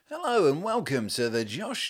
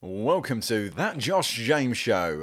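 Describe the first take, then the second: First: High, slow, hammed-up announcer voice; mock radio presenter. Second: Slow, drawn-out presenter intro; radio presenter. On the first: Mocking the host's polished intro as a cheesy presenter. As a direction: send up his intro like a radio host. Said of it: "Is that how I speak". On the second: Retold or imitated. Co-host imitating the host's intro, lightly hammed presenter. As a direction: stretch the welcome like a radio host. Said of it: "Like a radio presenter".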